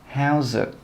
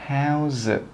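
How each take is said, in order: First: The words are linked together. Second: The words are linked together.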